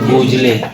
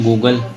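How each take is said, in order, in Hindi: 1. शब्द 'jlay' की आवाज़ से खत्म होता है, जैसा लिखा है वैसा पढ़ें। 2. शब्द 'gul' की आवाज़ से खत्म होता है, आखिरी e साइलेंट है। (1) "तो वो गुजली क्या होता है?" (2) "लेकिन पढ़ते क्या है?"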